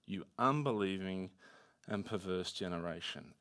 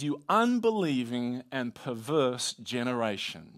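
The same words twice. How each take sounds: First: Low, subdued reproach, softer at the end; grave rebuke. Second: Mild exasperation, slow and weighted on UNBELIEVING; frustrated Jesus. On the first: Disciples hearing rebuke instead of affirmation, grave and hushed. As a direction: deliver the rebuke low and quietly. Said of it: "what do they hear?". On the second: Jesus rebuking a faithless generation, mildly frustrated. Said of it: "Jesus is clearly frustrated". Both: Acted.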